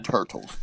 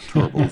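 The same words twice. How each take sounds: First: "Turtles" with a clear t, like the animal; right name. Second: "Turtles" said as "Turbles", with a b in the middle; wrong name. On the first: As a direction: correct it to "Turtles", t sound plain. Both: Shown as a demonstration. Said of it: "We used to tell 'em it was the Telford Turtles".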